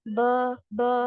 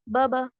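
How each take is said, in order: First: It is recited slowly. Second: It is recited fast.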